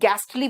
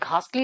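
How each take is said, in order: First: The first vowel is short, as in 'gas'. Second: The first vowel is long, as in 'ghast'. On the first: The speaker calls it right. "गैस्टली बोलोगे" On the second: The speaker calls it wrong. "घास्टली नहीं"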